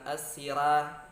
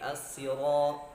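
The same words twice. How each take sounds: First: The r sound is thin and light. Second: The r sound is thick and heavy. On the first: The speaker calls it wrong. "Ra bukan as-sira" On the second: The speaker calls it right. "Ra tebal karena dia harakat fathah"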